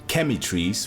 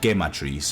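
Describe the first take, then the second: First: It is said like the English word chemistry. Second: It is said with a Spanish-sounding pronunciation. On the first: "which kind of sounds like chemistry" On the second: "it's kind of Spanish"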